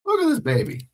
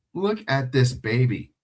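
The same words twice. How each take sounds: First: Much higher cooing pet voice. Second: Said in the usual way. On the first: Real, not acted. Streamer cooing at his dog, high baby talk. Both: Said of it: "my voice changes".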